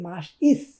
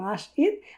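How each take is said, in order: First: The word ends with an s sound. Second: The word ends with a t sound. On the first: The word is used inside a sentence. "যখন সেটাকে আমরা বাক্যতে আহ, উচ্চারণ করব তখন হবে মাস ইস" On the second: The word stands alone. "যখন আমরা সিঙ্গেল বলবো তখন মাস ঈদ"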